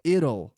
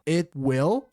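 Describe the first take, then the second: First: It is contracted into one word ending in L. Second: It is said as two separate full words. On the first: "é um som de L no final, não é som de U" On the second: "It will fica it'll"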